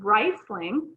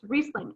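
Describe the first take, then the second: First: The first vowel sounds like 'eye'. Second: The first vowel sounds like 'ee'. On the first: The speaker calls it wrong. "that's kind of like the English way of saying it because R I, you would pronounce the I" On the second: The speaker calls it right. "but in the case of German, it's Riesling"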